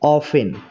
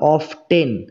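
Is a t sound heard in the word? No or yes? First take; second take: no; yes. First: The word is said without a t sound. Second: The word is said with a t sound. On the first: The speaker calls it right. "মানে এই টি এর উচ্চারণ হবে না" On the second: The speaker calls it wrong. "আমরা অফটেন এরকম উচ্চারণ করব না"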